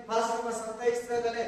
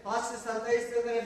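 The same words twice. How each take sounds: The two takes are said the same way.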